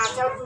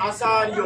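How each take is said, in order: First: Said in the usual way. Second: আচার্য said as a-sa-ri-yo; j turned to y. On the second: Shown as a demonstration. Teacher correcting how it is pronounced, riyo ending on আচার্য. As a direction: end আচার্য in "riyo", not "rjo". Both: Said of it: "আচার্য উচ্চারিত হবে না".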